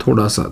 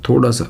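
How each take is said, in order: Both takes have the same delivery.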